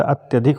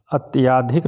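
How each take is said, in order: First: अत्यधिक with a short अ after त्य; correct form. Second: अत्याधिक with a long आ after त्य; wrong form. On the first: Teacher gives students the correct अत्यधिक. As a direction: say the right word अत्यधिक plainly. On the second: Teacher names the wrong spelling अत्याधिक to students. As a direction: read the wrong word अत्याधिक clearly. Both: Shown as a demonstration. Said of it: "अत्याधिक नहीं होता".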